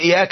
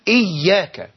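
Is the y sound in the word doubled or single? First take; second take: single; doubled. First: The y sound is short and not doubled. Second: The y sound is held and doubled. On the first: It would mean the sun is worshipped. The speaker calls it wrong. "الإمام كان يخفف ... فلا يشدد" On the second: It addresses the one who is worshipped. The speaker calls it right. "فالشيخ يقول إياك"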